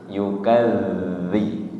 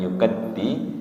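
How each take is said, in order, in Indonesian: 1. Konsonan tengahnya bunyi 'th' yang lembut. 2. Konsonan tengahnya bunyi 'd' yang keras. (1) "ujung lidah menyentuh ujung gigi seri atas lembut ya. Yukadzi tidak yukaddi" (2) "bukan yukaddi"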